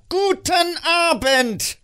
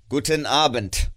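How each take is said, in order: First: Very high, loud, drawn-out yell; exasperated shout. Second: Loud, curt dismissal; curt goodbye. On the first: Scrooge finally shouts the nephew out, high and exasperated. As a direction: blow up and shout him out. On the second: Scrooge dismisses his nephew, curt and cold. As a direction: cut him off coldly. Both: Acted.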